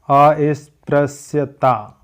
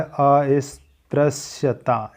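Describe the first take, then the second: First: अस्पृश्यता drawn out syllable by syllable; slow careful dictation. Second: अस्पृश्यता stretched out slowly as the corrected form; slow careful dictation. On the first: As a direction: read अस्पृश्यता slowly as the misspelled form. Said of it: "होता है". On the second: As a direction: spell out अस्पृश्यता slowly, the right way. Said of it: "ये वाला सा change होता है". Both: Shown as a demonstration.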